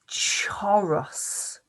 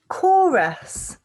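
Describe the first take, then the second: First: It begins with a ch sound. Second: It begins with a k sound. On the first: The speaker calls it wrong. "normally I would sound this out ch" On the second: The speaker calls it right. "let's try it with the K sound"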